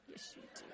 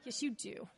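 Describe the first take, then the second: First: Whispered "Yes, you do." with no voice; teasing whisper. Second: Quiet knowing "Yes, you do."; soft teasing insist. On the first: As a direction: lean in and whisper it knowingly. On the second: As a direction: gently call their bluff, softly. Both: Pretend. Teasing listeners who deny it.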